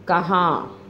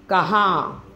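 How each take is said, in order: The two takes are said the same way.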